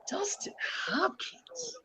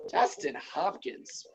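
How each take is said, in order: First: Much higher, slow whispered question; whispered high "Dustin Hopkins?" rising; incredulous whisper. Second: Slow, breathy whisper after a sigh; whispering the name in disbelief; stunned whisper. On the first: Repeats name in disbelief. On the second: Disbelief at kicker ranking. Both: Real, not acted.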